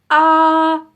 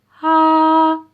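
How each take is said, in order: First: The vowel starts with a hard catch in the throat. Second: Air escapes audibly just before the vowel starts. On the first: "Is it glottal, like this" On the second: "is it breathy, like this"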